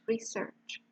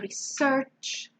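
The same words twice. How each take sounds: First: The stress is on the first syllable. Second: The stress is on the second syllable. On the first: It is used as a noun. "the noun public transport or research shows is stressed on the first syllable" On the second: It is used as a verb. "The verb is always stressed in the second syllable"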